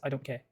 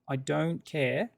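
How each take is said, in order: First: The vowel in 'care' is cut short. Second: The vowel in 'care' is held long.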